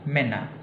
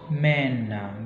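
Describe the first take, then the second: First: The first vowel is short. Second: The first vowel is long. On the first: The speaker calls it right. "A umlaut ini dilafalkan dengan pendek" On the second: The speaker calls it wrong. "Jadi bukan"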